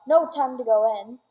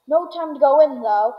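First: Said in the usual way. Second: Hurried call. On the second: A narrator's reading. Wonka hurrying past the doors.

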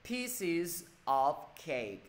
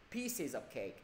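First: Very slow "Pieces of cake", each word apart; unlinked, word by word. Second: "Pieces of cake" run together, softer and quicker; linked, practised reading. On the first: Teacher helping students who cannot link yet, slow separated words. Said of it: "ai chưa đọc nối được thì cố gắng đọc là". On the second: Teacher showing the habitual reading, words linked softly. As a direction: slide "Pieces" straight into "of cake". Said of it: "thầy đọc quen rồi". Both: Shown as a demonstration.

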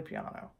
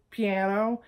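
First: The Italian piano, quietly; correct Italian. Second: Piano with a flat American a, pee-AN-o; the everyday American piano; American pronunciation. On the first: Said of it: "it's really". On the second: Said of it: "we all say". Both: Shown as a demonstration.

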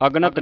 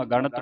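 First: ਅਗਣਤ squeezed to ag-nat; ਅਗਣਤ in two syllables, ag-nat; dropped middle vowel. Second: ਅਗਣਤ as a-ga-ṇat, three syllables; ਅਗਣਤ with retroflex ṇ after a full "ga"; full middle vowel. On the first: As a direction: run g into n in ਅਗਣਤ. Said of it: "ਅਗਣਤ ਨਹੀਂ ਪੜ੍ਹਨਾ". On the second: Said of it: "ਇਹਨੂੰ ਅਗਣਤ ਪੜ੍ਹਨਾ ਹੈ". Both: Shown as a demonstration.

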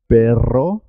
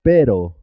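First: Long trilled rr in "perro"; rolled double R. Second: One quick tap in "Pero"; single tapped R. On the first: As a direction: vibrate the RR of "perro", ending on a rise. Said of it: "suena doble". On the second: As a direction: say "Pero" with a brief R, no roll. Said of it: "suena simple". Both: Shown as a demonstration.

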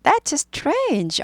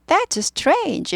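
First: Higher, wondering "That's strange"; amazed remark. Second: Higher, "That's" lifted in astonishment; amazed remark. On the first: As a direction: let the surprise lift it. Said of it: "느낌은 꼭 아셔야 됩니다". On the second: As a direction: marvel at it. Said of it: "이렇게 해야 되는데". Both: Shown as a demonstration.

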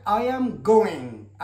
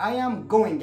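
First: I am going said very slowly; slow model sentence. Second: Said in the usual way. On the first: Shown as a demonstration. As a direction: draw it out for learners. (نطق بطيء للجملة) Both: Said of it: "هنا لو وضعنا".

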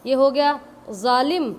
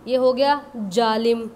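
Both takes have the same delivery.

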